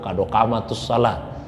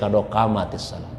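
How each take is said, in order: First: An 'u' vowel links the two words. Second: An 'i' vowel links the two words. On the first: The speaker calls it wrong. "bukan kado kamatus salatu" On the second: The speaker calls it right. "tapi kado kamatis salat"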